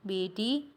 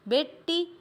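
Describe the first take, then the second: First: The middle consonant is single and short. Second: The middle consonant is doubled and held longer. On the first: This is the standard Hindi form. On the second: This is the Western Hindi form.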